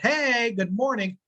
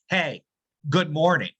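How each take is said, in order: First: It sounds warm and friendly. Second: It sounds cold and curt.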